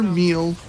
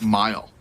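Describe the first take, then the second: First: The vowel is a long ee sound. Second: The vowel is an eye sound. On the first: The speaker calls it wrong. "It is neither meal" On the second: The speaker calls it right. "but mile"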